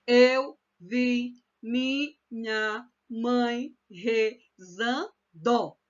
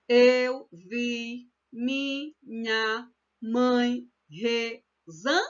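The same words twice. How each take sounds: First: "Eu vi minha mãe rezando" very slowly, one syllable at a time; counting every syllable. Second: "Eu vi minha mãe rezan" very slowly, one syllable at a time; counting out syllables. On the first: Teacher counting grammatical syllables to the end, "rezando" split syllable by syllable. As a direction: chant each syllable separately through to the final "do" of "rezando". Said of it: "vai até o final".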